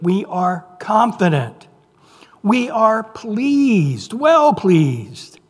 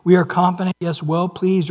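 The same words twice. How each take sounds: First: "pleased, well pleased" drawn out slowly and pitched up; emphatic repetition. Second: Said in the usual way. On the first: Acted. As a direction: linger on "confident" and stretch "pleased" for emphasis. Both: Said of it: "Notice those words in verse eight".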